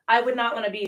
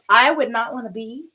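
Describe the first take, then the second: First: Said in the usual way. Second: Louder burst, caught mid-rant; too loud, she catches herself shouting. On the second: Real, not acted. Yoga teacher ranting to viewers, shouting. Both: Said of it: "sorry, I think I'm shouting".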